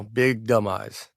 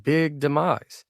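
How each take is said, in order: First: "Big Dumb Eyes" slow, the words running together; Southern drawl of Big Dumb Eyes. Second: "Big demise" slow, each syllable spelled out; misheard as big demise. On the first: Pitching the book title to the publisher, slow and run together. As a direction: say "Big Dumb Eyes" slowly so it blurs toward "big demise". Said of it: "And there was silence on the other end". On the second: Explaining what the publisher heard, slow and deliberate. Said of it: "It's like". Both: Retold or imitated.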